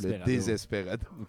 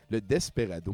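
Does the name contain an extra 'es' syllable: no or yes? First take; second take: yes; no. First: The name is said with an extra 'es' syllable. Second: The name is said without an extra syllable. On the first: The speaker calls it wrong. "pas le Désesperado" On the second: The speaker calls it right. "Le Desperado, pas le Désesperado"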